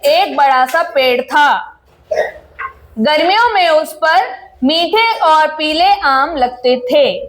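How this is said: A short pause separates the two sentences. The speaker calls it right. "जहां पे आपका पूर्ण विराम आ रहा है वहां पे आपको सेंटेंस खत्म करके थोड़ा सा रुकना है"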